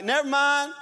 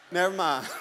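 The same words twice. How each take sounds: First: Higher, louder quick surrender; loud give-up call. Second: Said in the usual way. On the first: Retold or imitated. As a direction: blurt it as the bag drops. Dropping the bag, giving up.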